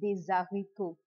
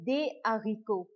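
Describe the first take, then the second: First: Des is linked to haricots with a z sound. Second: Des and haricots are kept apart, without linking. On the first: The speaker calls it wrong. "instead of saying des haricots. We will not join" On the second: The speaker calls it right. "So we would say des haricots"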